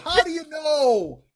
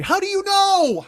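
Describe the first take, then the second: First: Higher, slow, put-on whine; mock the question in a silly voice; mock whiny retort. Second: Louder, higher, slow disbelief; incredulous retort. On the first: Mocking the video narrator's claim, slow whiny put-on voice. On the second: Real, not acted. Retorting to the video narrator, loud incredulous demand. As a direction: demand it, stretching each word. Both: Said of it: "repeated retort".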